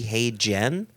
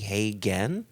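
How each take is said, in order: First: The second syllable begins with a J sound. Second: The second syllable begins with a G sound. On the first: "if it were a hard G, wouldn't it be hey Jen?" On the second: "a soft G would be hey gen?"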